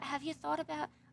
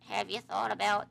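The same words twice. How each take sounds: First: It is said in the speaker's ordinary voice. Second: It is said in a put-on old woman's voice.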